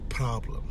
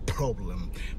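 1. حرف العلة الأول هو صوت 'ah' مفتوح. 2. حرف العلة الأول هو صوت 'o' مدوّر. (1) "بالأمريكي ينطق A" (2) "حرف الأو في البريطاني ينطق أو"

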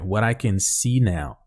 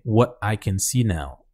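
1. O t soa como um r rápido, batido. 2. O t é cortado com uma oclusão. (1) "vamos colocar com o som do R que a gente já tá mais acostumado" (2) "Se você quiser botar um stop T também"

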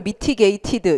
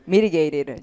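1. 이 단어는 세고 또렷하게 발음합니다. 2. 이 단어는 부드럽고 매끄럽게 발음합니다. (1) "발음을 mitigated 이렇게 하지 마시고" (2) "부드럽게 발음을 하셔야 돼요"

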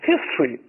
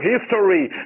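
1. 中间的元音省掉。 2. 中间的元音要读全。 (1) "一般都会把那o 那个a 也省掉" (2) "有些人在国外确实咬文嚼字要读成history"

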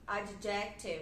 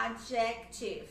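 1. A tônica está na segunda sílaba. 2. A tônica está na segunda sílaba.

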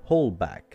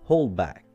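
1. يُحذف صوت 'd' في نهاية 'hold'. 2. يُحذف صوت 'd' في نهاية 'hold'.

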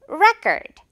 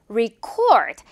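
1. 첫 모음은 'eh'처럼 발음됩니다. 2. 첫 모음은 'ee'처럼 발음됩니다. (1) "그래서 레" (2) "이렇게 re 발음으로 바뀌거든요"

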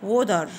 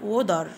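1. تُنطق بلكنة أمريكية وبحرف t مُرقَّق. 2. تُنطق بلكنة أمريكية وبحرف t مُرقَّق.

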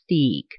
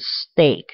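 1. 这个元音听起来像seed里的ee。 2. 这个元音听起来像say里的ay。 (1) "你很自然的你会念steak，那答案是错的" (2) "第二排单词是steak，steak 是牛排"

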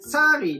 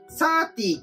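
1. 真ん中の子音は、速いフラップ音です。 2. 真ん中の子音は、はっきりしたT音です。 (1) "フラップを捉え、サーリーのように発音するとより音源に充実です" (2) "フラップがなく、サーティーという発音になってらっしゃいました"

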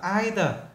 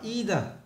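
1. Từ này được phát âm theo giọng Anh. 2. Từ này được phát âm theo giọng Mỹ. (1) "Nếu như người Anh người ta đọc là either" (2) "còn người Mỹ người ta đọc là either"

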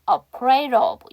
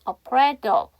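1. d는 부드러워지면서 짧은 탄설음이 돼요. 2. 분명한 d는 바로 of로 이어져요. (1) "다시 D 사운드 모음과 모음 사이 약화할게요" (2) "D 사운드 연음할게요"

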